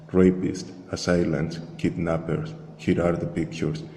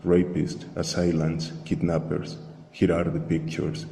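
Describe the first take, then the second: No difference in how they are said.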